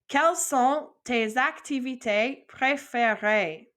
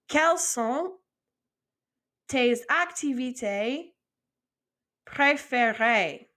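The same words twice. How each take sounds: First: It is said as one smooth unbroken phrase. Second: It is said in two-word chunks with pauses.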